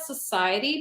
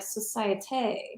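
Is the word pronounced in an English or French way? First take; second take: English; French. First: It is pronounced the English way. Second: It is pronounced the French way. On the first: It is treated as an ordinary beer name. "you pronounce that society" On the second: It is treated as a fancy name. "that should be fancy in French, like société"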